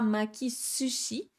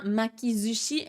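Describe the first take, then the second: First: The consonant before ushi is a hissing s. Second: The consonant before ushi is a buzzing z. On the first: The speaker calls it wrong. "et non pas makisushi" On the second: The speaker calls it right. "On dit bien makizushi"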